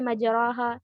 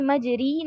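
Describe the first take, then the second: First: The vowel after r is a long a sound. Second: The vowel after r is a full i sound. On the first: "मजराहा ऐसा भी नहीं है" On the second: "मैंने मजरी नहीं कहा, यानी कि कसरा नहीं दिया है"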